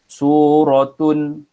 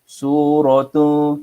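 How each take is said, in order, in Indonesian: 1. Bunyi nun di akhir dibaca jelas. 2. Bunyi nun di akhir tidak dibaca jelas. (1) "kita baca jelas tau" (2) "kita tak baca macam tu"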